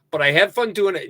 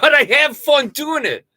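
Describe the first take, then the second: First: Said in the usual way. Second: Loud declaration. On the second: Real, not acted.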